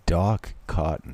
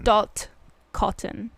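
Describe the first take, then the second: First: "Doc Cotton" said with a hard k, mishearing "Dot"; misheard name. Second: "Dot Cotton" said slowly, with a clear t ending "Dot"; correcting the name. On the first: Real, not acted. Guessing the slang, she mishears it as Doc Cotton. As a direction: say "Doc Cotton", ending the first word in k. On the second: Shown as a demonstration. British friend correcting the mishearing, slow clear Dot Cotton.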